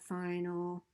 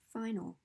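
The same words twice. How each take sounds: First: The first syllable is not raised in pitch. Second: The first syllable is higher in pitch. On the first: The speaker calls it wrong. "It's not final" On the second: The speaker calls it right. "the stressed syllable has a higher pitch"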